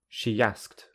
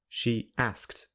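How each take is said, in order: First: The two words run together smoothly. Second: The two words are said separately. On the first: "with linking" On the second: "without linking"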